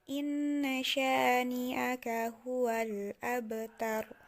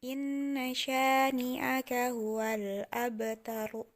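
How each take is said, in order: Both takes have the same delivery.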